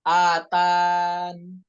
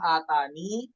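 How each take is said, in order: First: The word ends on n without an i sound. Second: The word ends with a final i sound. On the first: "cara yang kedua ... tanpa huruf ya-nya" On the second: "mengisbat ya"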